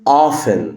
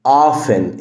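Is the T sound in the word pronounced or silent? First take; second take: silent; silent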